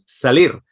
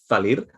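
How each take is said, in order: First: The word begins with a plain s sound. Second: The word begins with a lisped th sound. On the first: This is how speakers from Spain actually say it. The speaker calls it right. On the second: This is how outsiders imitate the accent of Spain. The speaker calls it wrong.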